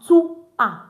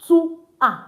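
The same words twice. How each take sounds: No difference in how they are said.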